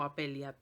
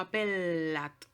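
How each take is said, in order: First: The double L sounds like l plus i. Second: The double L is a long l sound. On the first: The speaker calls it wrong. "o apeliat" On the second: The speaker calls it right. "suena como L más L"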